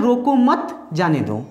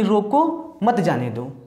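First: "रोको मत" together, pause, "जाने दो"; pause after मत. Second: "रोको", clear comma pause, "मत जाने दो"; pause after रोको. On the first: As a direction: stop after मत, then let "जाने दो" follow. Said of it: "तो ये कॉमा है". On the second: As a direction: stop after रोको, then run "मत जाने दो" together. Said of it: "जो कॉमा लिखा है". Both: Shown as a demonstration.

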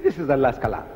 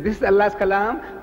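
First: "This is Allah's kalam" in a lower, falling answer. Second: "This is Allah's kalam" high, rising at the end. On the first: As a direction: bring "This is Allah's kalam" down to a close. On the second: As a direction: say "This is Allah's kalam" higher, left hanging upward. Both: Retold or imitated.

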